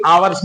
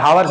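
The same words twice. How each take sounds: First: आवर्स starting straight on the vowel, no h; आवर्स with the h dropped, the right way; silent h. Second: हावर्स with a voiced h at the start; wrong h pronounced. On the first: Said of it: "आवर्स बोलेंगे". (आवर्स, ह silent, सही उच्चारण) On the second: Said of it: "हावर्स नहीं". (हावर्स में ह बोलकर, गलत उच्चारण) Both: Shown as a demonstration.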